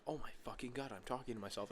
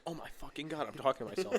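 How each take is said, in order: First: Plain inner voice, quiet; muttered realization. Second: Higher, mocking echo with a laugh; the other half of the brain repeating it mockingly. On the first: Retold or imitated. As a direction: mutter it to yourself. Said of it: "I'm like". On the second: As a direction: parrot it back, teasing. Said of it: "the other part of me goes".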